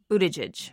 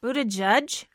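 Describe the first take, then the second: First: Buttigieg said with a final "jij"; first-attempt pronunciation. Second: Buttigieg echoed as "BOO-tuh-judge?", rising; corrected pronunciation, checking. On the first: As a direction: end Buttigieg on "-jidge", rhyming with fridge. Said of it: "I've seen different pronunciations". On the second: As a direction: try Buttigieg ending like judge, as a question. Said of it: "I'll go with what". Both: Real, not acted.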